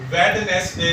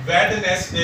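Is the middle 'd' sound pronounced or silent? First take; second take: pronounced; pronounced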